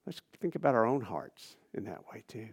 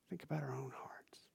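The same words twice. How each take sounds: First: Said in the usual way. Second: Softer, unvoiced whisper; hushed inward whisper. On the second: Real, not acted. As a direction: lean in and whisper it.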